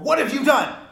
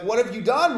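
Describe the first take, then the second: First: It is said as an accusing statement. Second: It is said as a puzzled question.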